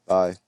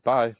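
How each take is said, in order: First: "Bye" at everyday pitch, casually firm; nonchalant bye. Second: "Bye" lifted high and loud; an over-keen, raised "Bye"; not-nonchalant bye. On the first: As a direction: toss off "Bye" without lifting it. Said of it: "being nonchalant". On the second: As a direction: demonstrate an eager, higher "Bye". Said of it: "I wasn't like". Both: Shown as a demonstration.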